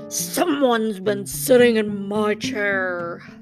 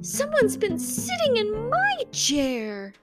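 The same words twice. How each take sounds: First: The voice is big, deep and low-pitched. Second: The voice is middle-sized and medium-pitched. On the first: The father bear is speaking. "said the papa bear in his great big voice" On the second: The mother bear is speaking. "said the mama bear in her middle-sized voice"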